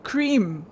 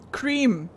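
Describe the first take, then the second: No difference in how they are said.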